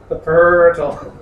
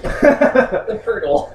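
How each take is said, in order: First: "portal" said slowly and louder, leaning in; owning his pronunciation. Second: "portal" stretched slow, high and loud with a laugh; mock the way he says "portal"; mocking laughing repeat. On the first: Shown as a demonstration. Player embraces his odd way of saying portal, slow and proud. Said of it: "that's how I say it". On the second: Friend mocks the player's pronunciation of portal, laughing. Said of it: "mocking repeat".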